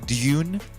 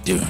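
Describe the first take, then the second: First: A y sound comes before the vowel. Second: No y sound comes before the vowel. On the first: "the way I would pronounce Dune would be with a Y" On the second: "So I'm saying Dune today"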